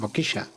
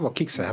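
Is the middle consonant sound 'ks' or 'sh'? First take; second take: sh; ks. First: The middle consonant sounds like sh. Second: The middle consonant sounds like ks. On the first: The speaker calls it right. "So it's like Brazil?" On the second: The speaker calls it wrong. "It's not abokixa"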